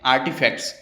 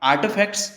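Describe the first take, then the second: First: आर्टिफैक्ट्स with a full Indian T, the form to avoid; Indian accent. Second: आर्टिफैक्ट्स with a half-spoken American T; American आर्टिफैक्ट्स, T barely touched; US accent. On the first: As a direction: Indian English आर्टिफैक्ट्स, hard T. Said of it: "Indian accent में". (भारतीय लहजे में आर्टिफैक्ट्स) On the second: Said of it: "US accent में". (अमेरिकी लहजे में आर्टिफैक्ट्स) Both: Shown as a demonstration.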